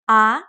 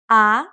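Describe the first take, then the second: First: The pitch starts mid and rises. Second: The same.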